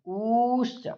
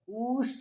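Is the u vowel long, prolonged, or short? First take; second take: prolonged; long. First: The u vowel is held for three beats. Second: The u vowel is held for two beats. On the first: "इसकी हो जाएगी प्लुत संज्ञा" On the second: "इसकी हो जाएगी दीर्घ संज्ञा"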